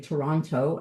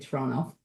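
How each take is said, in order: First: It is said the standard, non-local way. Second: It is said the local Torontonian way. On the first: This is how people who aren't locals say it. "I don't say Toronto" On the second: This shows the speaker is a local. "I say Toronto because that's what we do"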